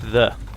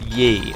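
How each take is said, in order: First: The word begins with a th sound. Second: The word begins with a y sound. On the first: The speaker calls it right. "It is actually pronounced the" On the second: The speaker calls it wrong. "is not pronounced ye, as a lot of people pronounce it"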